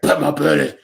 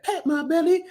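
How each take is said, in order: First: Loud, forceful cartoon demand in a put-on voice; insistent cartoon rabbit. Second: High-pitched cartoon critter voice; cartoon rabbit request. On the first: Fan quoting the cartoon rabbit after a refusal, loud and insistent. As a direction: push it out hard as a cartoon order. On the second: Fan quoting a cartoon rabbit asking for a belly rub, high-pitched.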